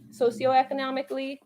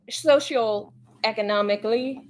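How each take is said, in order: First: Said in the usual way. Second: Socioeconomically slowly, its start slurred to "soshul"; halting mispronunciation. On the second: Real, not acted. Streamer tripping over a long word, halting mispronunciation. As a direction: say socioeconomically as "social-economically", drawn out.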